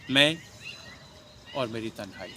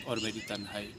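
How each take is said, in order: First: मैं, then a comma-length pause before और मेरी तन्हाई; pause after मैं. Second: Bachchan recitation. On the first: Shown as a demonstration. Teacher showing a comma pause in a recited line. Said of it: "मैं के बाद pause है". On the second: Acted. Teacher first reciting the line softly as Bachchan. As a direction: breathe out the words softly. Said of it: "Amitabh Bachchan साहब का".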